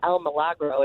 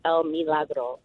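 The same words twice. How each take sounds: First: The i is said with a non-ee vowel. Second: The i is said as an ee sound. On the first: The speaker calls it wrong. "it's not El Milagro" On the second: The speaker calls it right. "the I is pronounced like a double E"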